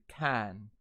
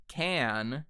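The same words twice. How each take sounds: First: CAN with an open, untensed British 'a'; British vowel. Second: Said in the usual way. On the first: Shown as a demonstration. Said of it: "turns into can". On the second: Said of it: "the American Standard".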